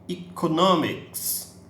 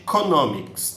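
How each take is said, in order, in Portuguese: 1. A primeira vogal soa como 'ee'. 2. A primeira vogal soa como 'eh'. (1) "esse E se transformou num I na pronúncia" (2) "Ele não poderia ficar simplesmente economics"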